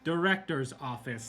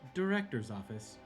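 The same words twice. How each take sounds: First: It is said very firmly and emphatically. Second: It is said in a smooth, sultry voice. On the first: The request is now an insistent demand. "like really, you know, means it this time" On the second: An automated elevator is announcing the destination. "a sultry like elevator voice"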